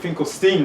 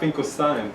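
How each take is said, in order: First: The last syllable rhymes with 'seen'. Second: The last syllable rhymes with 'line'. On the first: This is how the family says the name. "I noticed you pronounced it Finkelstein" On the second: This is how a German would say the name. "not Finkelstein"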